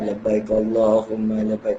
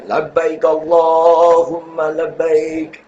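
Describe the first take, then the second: First: It is said softly and quietly. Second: It is said loudly with full energy.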